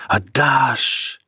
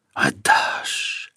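First: Voiced, rising water cry. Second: Whispered rushing water. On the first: The flood demanding Peter's heart, voiced cry. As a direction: call it out over the torrent. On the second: Acted. The flood demanding Peter's heart, whispered rush. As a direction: breathe it like a torrent.

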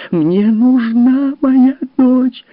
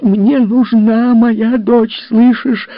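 First: Very high, loud, drawn-out scream; full shriek. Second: High, loud, slow shriek; shrieking demand. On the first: Mother screams while beating her husband. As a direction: shriek with everything. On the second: Mother shrieks at her husband. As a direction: scream at him. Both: Acted. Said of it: "её голос перешёл в визг".

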